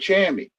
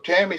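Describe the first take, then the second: First: The name begins with a CH sound. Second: The name begins with a plain T sound. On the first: "So Tammy say Chammy" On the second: "a T is a C H"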